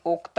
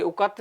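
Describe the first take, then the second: First: उक्त as one syllable, "ukt"; corrected form of उक्त. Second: उक्त split into two syllables, u-kat; mistaken form of उक्त. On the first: Teacher giving students the correction, उक्त with joined "kt". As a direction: join k and t at the end of उक्त. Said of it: "ये उक्त है". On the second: Teacher correcting a misspelling for students, उक्त read as "ukat". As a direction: say उक्त as "ukat", with a vowel before the final t. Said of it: "ये उक्त नहीं है". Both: Shown as a demonstration.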